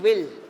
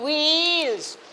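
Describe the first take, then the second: First: The vowel is a short i sound. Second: The vowel is a long ee sound. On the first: The speaker calls it wrong. "We are saying will. See this confusion we are making" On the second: The speaker calls it right. "E, E, wheels"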